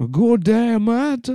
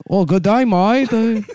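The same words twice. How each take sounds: First: Very high mock African-Australian accent. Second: High-pitched mock Chinese-Australian accent. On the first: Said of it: "Australian African". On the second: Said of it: "Australian Chinese".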